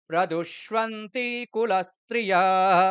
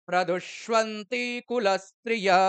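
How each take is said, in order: No difference in how they are said.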